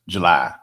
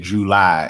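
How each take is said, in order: First: The first syllable is weak and reduced. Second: Both syllables are said fully and distinctly. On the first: This is how Californians say it. The speaker calls it wrong. "Y'all disrespecting the extra syllable" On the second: This is the speaker's own Mississippi way of saying it. The speaker calls it right. "I make two big distinctions in the syllables"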